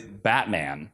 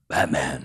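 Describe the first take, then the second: First: It is said in his normal voice. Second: It is said in a put-on Batman voice.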